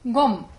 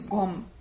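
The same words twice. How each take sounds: First: The word is said with a high pitch. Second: The word is said with a low pitch. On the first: Actively familiarizing yourself with something. "It's high pitched" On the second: Having been familiarized with something. "without the s in front"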